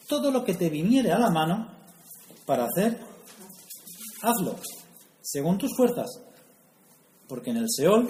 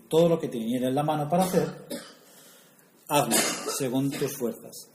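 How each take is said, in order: First: Higher, louder, solemn reading of the verse; scripture reading. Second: Faster run-in, then "según tus fuerzas" slowed and weighted; verse with stress on fuerzas. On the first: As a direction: proclaim the verse like a preacher. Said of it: "Salomón nos quiere decir". (lectura solemne, más aguda y fuerte) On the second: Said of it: "La fuerza está en la primera parte". (recalcando despacio "según tus fuerzas") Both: Real, not acted.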